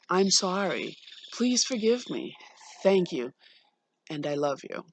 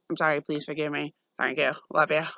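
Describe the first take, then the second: First: It sounds heartfelt and sincere. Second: It sounds careless and insincere.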